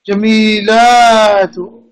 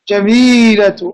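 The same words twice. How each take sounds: First: The vowel after the l is long. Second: The vowel after the l is short. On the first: The speaker calls it wrong. "elongating too much" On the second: The speaker calls it right. "No, jamilatu"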